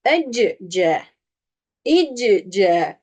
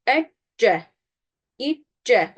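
First: "Ecce, icce" with a vowel slipped in mid-word; wrong shadda reading. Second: "Ecce. İ, C" with a held, unbounced double c; correct shadda. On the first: Teacher shows the mistake, "Ecce, icce" with bounced c. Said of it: "Yanlış okumayı öğretiyorum". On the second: Teacher models "Ecce. İ, C" without qalqalah, held consonant. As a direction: hold the closure in "Ecce. İ, C", then release once. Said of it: "Kalkalenin hükmü düşüyor". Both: Shown as a demonstration.

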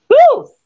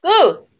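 First: Very high, loud duck squawk. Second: High squawk of a duck. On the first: Shown as a demonstration. Reader shows how Duck answered, squawking. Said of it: "so he kind of squawked". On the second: A narrator's reading. Duck answers Thistle's question, squawking. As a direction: squawk the name, pitched up. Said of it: "squawked Duck".

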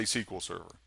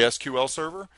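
First: "S Q L" said SEE-kwul; "S Q L" as one word, sequel; SQL as a word. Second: "S Q L" said letter by letter; "S Q L" as three separate letters; spelled-out SQL. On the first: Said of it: "or do you say". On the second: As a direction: spell out "S Q L" as ess-cue-ell. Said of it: "Do you say". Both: Shown as a demonstration.

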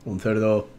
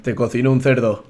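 First: Deadpan low. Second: Blunt. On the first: Deadpan repeat for laughs. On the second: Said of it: "Qué cruel suena así". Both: Pretend.

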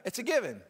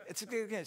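First: Laughing. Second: Said in the usual way. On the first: Real, not acted. Laughing at own crying.

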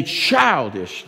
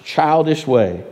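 First: Said in the usual way. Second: Put-on stretched, weighted childish; slow stressed repeat. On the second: Shown as a demonstration. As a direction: lean hard on childish way.

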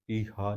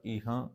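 First: ਈਹਾ with a plain, un-nasal final aa; oral ending, mistaken. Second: ਈਹਾਂ with the final aa through the nose; nasalised ending. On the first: Teacher showing the wrong reading, ਈਹਾ without nasalisation. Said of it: "ਨਹੀਂ ਪੜ੍ਹਨਾ". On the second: Teacher correcting the reading, ਈਹਾਂ ending nasal. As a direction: nasalise the last vowel of ਈਹਾਂ. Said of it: "ਈਹਾ ਨਹੀਂ ਪੜ੍ਹਨਾ". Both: Shown as a demonstration.

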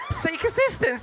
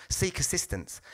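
First: High, laughing delight; excited. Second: Flat automated announcement; lightly voiced machine prompt. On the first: Retold or imitated. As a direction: squeal it in awe. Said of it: "I'm like". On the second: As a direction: read it like the ticket machine. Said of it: "it came up".

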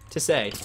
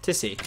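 First: "Tissay" as tiss-AY; TISSAY pronunciation. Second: "Tissy" as TISS-ee, lowered pitch; TISSY pronunciation. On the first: Streamer testing the name "Tissay", ay ending. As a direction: end "Tissay" on an ay as in day. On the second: Streamer testing the name "Tissy", ee ending. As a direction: say "Tissy" stressed first, ending in ee. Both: Real, not acted. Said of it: "I don't know how to pronounce it".

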